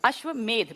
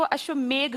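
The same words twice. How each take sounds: First: अश्वमेध with a final "dh" sound; correct pronunciation. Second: अश्वमेघ with a final "gh" sound; common mispronunciation. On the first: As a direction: end अश्वमेध on ध, not घ. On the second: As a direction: end अश्वमेघ on घ, as in मेघ. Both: Shown as a demonstration. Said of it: "मेघ नहीं है ये".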